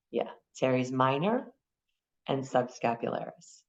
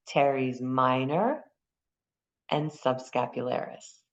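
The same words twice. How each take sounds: First: Said in the usual way. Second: Teres minor drawn out slowly, each syllable clear; slow careful naming. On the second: Shown as a demonstration. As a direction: spell out the muscle names slowly for the class. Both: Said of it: "I hear you".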